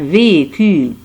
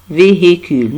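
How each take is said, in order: First: The middle h is silent. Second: The middle h is audibly pronounced. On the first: The speaker calls it right. "Non, un véhicule" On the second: The speaker calls it wrong. "ce n'est pas véhicule, non"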